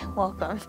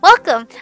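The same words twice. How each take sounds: First: It is said quietly. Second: It is said loudly.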